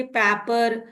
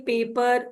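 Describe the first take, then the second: First: "paper" with the first vowel as in "cat"; mispronounced paper. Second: Said in the usual way. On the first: Shown as a demonstration. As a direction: say "paper" with a short a, like "papper". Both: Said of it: "Why don't we say paper?".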